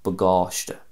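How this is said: It is said in a Munster Irish accent.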